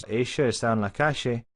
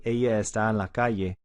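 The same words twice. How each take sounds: First: Strong Argentine Spanish, calle said kashe; strong Argentine accent. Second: Latin American Spanish, calle said kaye; Ella with a y sound, Latin American style; Latin American accent. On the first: Teacher contrasts strong Argentine accent with Latin American. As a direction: lean into the Argentine sh in Ella and calle. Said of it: "a very strong Argentine accent". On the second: Teacher contrasts Latin American with Argentine accent. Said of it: "typical Latin American way". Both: Shown as a demonstration.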